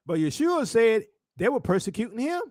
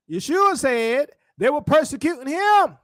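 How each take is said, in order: First: Said in the usual way. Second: Higher, more forceful preaching delivery; emphatic repeat. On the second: Real, not acted. Preacher repeats the point after "Come on now", emphatic. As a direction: drive it home to the congregation.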